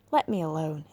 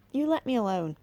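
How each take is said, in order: First: Dry husky voice. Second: Imitating creature. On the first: A narrator's reading. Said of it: "a dry, husky voice". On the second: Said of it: "it said something".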